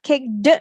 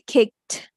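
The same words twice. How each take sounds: First: The ending is not pronounced as a t sound. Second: The ending is pronounced as a t sound. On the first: The speaker calls it wrong. "It's not kicked" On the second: The speaker calls it right. "If the word ends in a voiceless consonant, the suffix ed sounds t"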